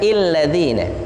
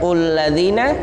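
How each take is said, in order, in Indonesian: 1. Kata ini diawali dengan vokal i. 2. Kata ini diawali dengan vokal u. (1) "bukan illadzina" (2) "bukan ulladzina"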